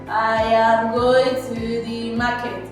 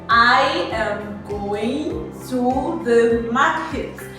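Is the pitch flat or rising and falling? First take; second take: flat; rising and falling. First: The pitch stays flat throughout. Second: The pitch rises and falls throughout. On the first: The speaker calls it wrong. "they just say" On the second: The speaker calls it right. "there's supposed to be a rise and fall in your voice"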